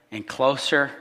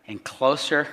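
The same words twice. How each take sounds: The two takes are said the same way.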